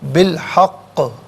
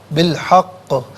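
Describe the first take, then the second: First: The final q has a slight echoing bounce. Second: The same.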